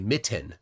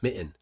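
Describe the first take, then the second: First: The middle T is said hard. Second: The middle T is dropped. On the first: The speaker calls it wrong. "pronounce the double T in the middle like that pretty hard" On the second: The speaker calls it right. "Seriously, no T. You hear that?"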